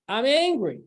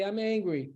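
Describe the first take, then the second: First: Snapping in anger; angry outburst. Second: Soft, calm, noticing the feeling; name the anger quietly to yourself; calm self-aware admission; calm acknowledgement. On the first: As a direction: let the anger flare out. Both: Shown as a demonstration. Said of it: "And then you stop and say".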